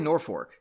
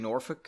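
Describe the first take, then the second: First: The word is said with an added R sound. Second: The word is said without an added R sound. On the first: This is the local habitual pronunciation. "I say Norfolk. I add that R in Norfolk" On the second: This is the expected standard pronunciation. "I think you're supposed to say Norfolk"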